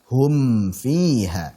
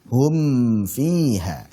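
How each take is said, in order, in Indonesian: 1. Bunyi m dilafalkan dengan jelas. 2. Bunyi m dilafalkan dengan jelas.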